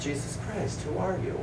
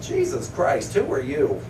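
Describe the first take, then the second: First: It is said evenly like a book title. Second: It is blurted out like an exasperated oath. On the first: It names the book as a sincere question. "The book is called" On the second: It sounds like swearing at someone. "I knew what he wanted, so I said"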